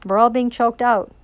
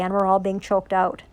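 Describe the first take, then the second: First: "We're all being choked out" repeated louder, leaning on "all"; emphatic repeat. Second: Said in the usual way. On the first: Real, not acted.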